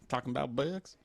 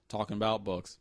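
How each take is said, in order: First: It is said in an odd put-on voice. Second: It is said in a plain normal voice. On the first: The speaker calls it wrong. "I want you to stop that voice, whatever that was" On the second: The speaker calls it right. "That's way better"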